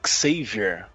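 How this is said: The name is said with English pronunciation. The speaker calls it right. "Em inglês é o Xavier"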